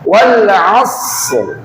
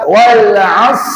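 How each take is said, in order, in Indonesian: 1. Kata ini berakhir dengan bunyi r yang terdengar. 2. Kata ini berakhir tanpa bunyi r. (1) "Roknya di nampak" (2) "Roknya nggak ada, nggak boleh"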